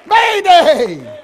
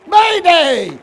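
Both takes have the same delivery.

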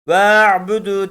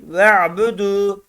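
First: "Ve'budu" with the first e stretched long; long, drawn-out first syllable in "Ve'budu"; wrongly lengthened vowel. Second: "Ve'budu" with a short first e, straight into the ayn; don't stretch the ve in "Ve'budu"; short first syllable closed on the ayn in "Ve'budu"; without lengthening. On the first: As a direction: drag out the ve before the ayn in "Ve'budu". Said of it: "değil". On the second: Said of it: "Çekmeden". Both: Shown as a demonstration.

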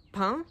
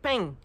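First: Pain said with the Paris nasal vowel; standard pain. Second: Pain said like peigne with a G-like ending; southern pain. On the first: Vlogger giving standard pain before the southern one. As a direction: give pain the northern sound. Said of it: "they say peigne". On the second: Vlogger imitating how Perpignan says pain. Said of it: "they're not exactly saying peigne". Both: Shown as a demonstration.

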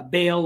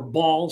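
First: "Baal" said as BAY-ul, rhyming with "pail"; "Baal" with the vowel of "day"; pronounced BAY-ul. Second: "Baal" said as one syllable, BAWL; "Baal" with an open AW vowel, like "ball"; pronounced BAWL. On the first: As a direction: say "Baal" with a long A, like "bail". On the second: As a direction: say "Baal" to rhyme with "hall". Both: Shown as a demonstration. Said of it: "some may pronounce it".

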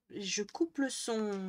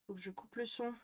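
First: Slow and deliberate; drawn out slowly, word by word. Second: Said in the usual way. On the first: Real, not acted.

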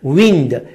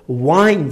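First: ویند with short "i", the word for moving air; contrasting pronunciation demo. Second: وایند with an "ai" glide; contrasting pronunciation demo. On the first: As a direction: say ویند to rhyme with "pinned". (تلفظ «ویند» با «ای» کوتاه) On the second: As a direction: say وایند to rhyme with "find". (تلفظ «وایند» با صدای «آی») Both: Shown as a demonstration.

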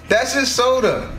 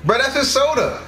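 First: Slower, "his" drawn out; slow repeat, stress on his. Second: "his" lifted high and leaned on; stress on his. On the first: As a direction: say "that's his soda" slowly, leaning on "his". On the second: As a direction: punch "his" in "that's his soda". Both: Shown as a demonstration.

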